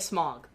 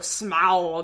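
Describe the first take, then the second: First: The name is said plainly, like the word smog. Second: The name is said with an exaggerated, affected vowel. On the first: The ordinary way one might expect to say it. The speaker calls it right. "Why do they not just say smog?" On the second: The way people involved with the film say it. The speaker calls it wrong. "they go Smaug, and it's just like, oh gosh"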